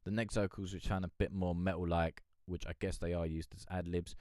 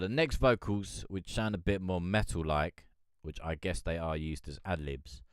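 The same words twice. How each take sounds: First: It is read at a faster pace. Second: It is read at a slower pace.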